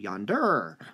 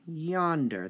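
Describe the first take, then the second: First: The stress is on the second syllable. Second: The stress is on the first syllable. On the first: The speaker calls it wrong. "just doesn't sound right" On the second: The speaker calls it right. "The yon part is stressed"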